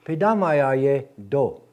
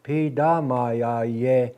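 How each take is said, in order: First: Pidamayaye do, slow and louder, ending on do; male form. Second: Pidamayaye very slow, with no ending do; female form. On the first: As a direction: say Pidamayaye do as a man would. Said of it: "That's how I would say it as a male". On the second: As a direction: say Pidamayaye as a woman would. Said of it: "That's how a female will say it". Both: Shown as a demonstration.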